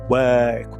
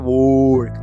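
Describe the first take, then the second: First: The vowel is a central 'er' sound. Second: The vowel is replaced by another full vowel. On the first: The speaker calls it right. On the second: The speaker calls it wrong.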